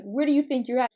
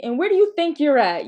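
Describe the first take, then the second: First: Milder, slightly raised quizzing tone; literal question. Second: Loud, higher mock-stern challenge; challenging mom. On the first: Retold or imitated. Mom as the child understood her, mildly sincere question. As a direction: ask it as if wanting an answer. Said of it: "I thought she was asking me". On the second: Mom to child running in the house, loud rhetorical challenge. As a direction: demand it like a mother catching mischief. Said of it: "my mom would say to me".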